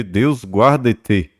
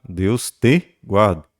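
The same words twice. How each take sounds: First: Said in the usual way. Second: "te" leaned on, said slowly and clearly; slow, stressed te. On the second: Shown as a demonstration. Teacher gives the students the correct form, slowly, stressing te. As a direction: spell out "Deus te guarde" slowly, leaning on "te".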